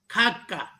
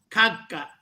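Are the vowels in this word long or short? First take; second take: short; short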